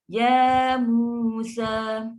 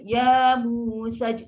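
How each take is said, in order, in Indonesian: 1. Vokal akhir dibaca panjang, dua harakat. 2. Vokal akhir dibaca pendek, satu harakat. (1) "ni pun kena baca dua harakat panjang" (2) "Tapi ramai baca ya Musa saj"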